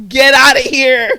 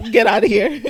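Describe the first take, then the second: First: Slow, much louder mock shout; hammed-up shout to shoo a kid away; mock yelling. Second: Loud mock dismissal; raised-voice playful brush-off; mock shooing. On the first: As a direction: bellow a drawn-out playful dismissal. Repeats the shooing, escalated. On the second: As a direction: shoo the kid away, half-joking. Shooing an imagined talking kid.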